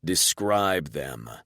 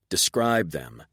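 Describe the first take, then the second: First: Slow, cutting and cold; strict, slashing command. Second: Harsh. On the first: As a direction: slice each word slowly. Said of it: "so that your voice slashes and rips". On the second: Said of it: "adding a note of harshness to my voice". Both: Acted.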